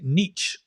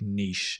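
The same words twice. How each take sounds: First: The word is said like 'nitch', rhyming with pitch. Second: The word is said like 'neesh', rhyming with leash. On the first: "they say niche" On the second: "I'm going to use the uh, the British pronunciation"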